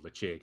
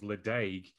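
First: The middle consonant is a ch sound. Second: The middle consonant is a d sound. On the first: The speaker calls it right. "it's Lecheg" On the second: The speaker calls it wrong. "I was the Ledaig guy"

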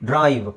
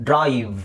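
No difference in how they are said.

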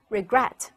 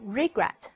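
First: The stress is on the second syllable. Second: The stress is on the first syllable. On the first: The speaker calls it right. "而在后一个音节，所以我们通常读成regret regret" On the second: The speaker calls it wrong. "这个单词不要读成regret 就错了，它的重音并不在第一个音节"

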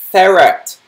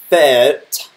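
First: The vowel after the R is clearly pronounced. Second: The vowel after the R is dropped. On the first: The speaker calls it right. "it's pronounced ferret" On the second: The speaker calls it wrong. "not ferret, or whatever that was"

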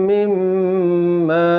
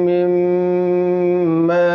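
The two takes are said the same way.

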